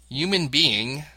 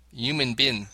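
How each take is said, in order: First: HUMAN BEING slow, with full -ing; British pronunciation. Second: HUMAN BIN, being squashed into bin; clipped ending. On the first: Host modelling British speech, careful HUMAN BEING. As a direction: spell out "human being" slowly with its ng. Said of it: "would pronounce the words human being". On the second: Host showing what to avoid, HUMAN BIN for human being. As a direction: run "being" down to one beat, "human bin". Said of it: "rather than". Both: Shown as a demonstration.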